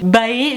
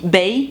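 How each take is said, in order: First: The word is pronounced in a deliberately altered way. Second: The word is pronounced in the standard way. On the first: The speaker calls it wrong. "c'est moi qui le prononce volontairement très mal" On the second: The speaker calls it right. "normalement on dit Bae"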